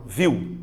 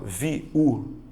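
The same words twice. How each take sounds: First: "viu" run together as one syllable, VIW. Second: "viu" wrongly split as vi... u; split into syllables. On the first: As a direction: say "viu" in a single glide from I into U. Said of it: "É uma coisa só". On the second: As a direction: say "viu" as two separate vowels, vi, then u. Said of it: "Você não fala viu". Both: Shown as a demonstration.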